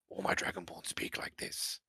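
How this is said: It is said in a deep voice.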